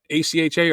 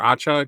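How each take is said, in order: First: It is spelled out letter by letter. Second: It is sounded out as one word.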